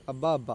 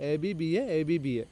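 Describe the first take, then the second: First: "അബ്ബ അബ്ബ" run together as two-syllable words; acronym as word. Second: "എ ബി ബി എ" as four separate letter names; spelt letter by letter. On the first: Teacher giving students a memory code, acronym as word. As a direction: say "അബ്ബ" as one word, not letters. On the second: Teacher expanding a memory code for students, spelt letter by letter. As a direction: spell out "എ ബി ബി എ", each letter named. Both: Shown as a demonstration. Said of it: "ഞാൻ ഉണ്ടാക്കിയൊരു code".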